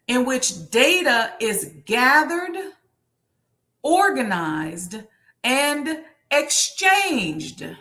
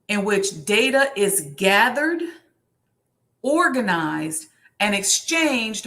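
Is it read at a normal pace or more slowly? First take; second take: slower; normal. First: It is read more slowly. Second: It is read at a normal pace.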